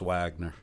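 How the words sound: The name is said the American way. This is how it is said in the US. "in the U S. It's Wagner"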